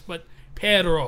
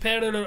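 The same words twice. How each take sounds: First: Slow perro, R unrolled; careful perro, no trill. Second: Perro with no rolled R; flat R in perro; unrolled perro. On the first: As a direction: drag out perro without a trill. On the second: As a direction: say perro without the trill. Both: Shown as a demonstration. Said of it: "I can't roll my R's".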